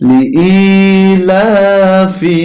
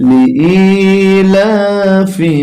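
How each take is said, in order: Both takes have the same delivery.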